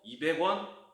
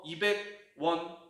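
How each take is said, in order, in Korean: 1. 숫자와 단위가 한 호흡으로 이어져서 발음돼요. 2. 숫자와 단위를 더듬듯이 끊어서 발음해요. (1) "한 호흡을 읽어버리잖아요" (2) "이런 느낌으로"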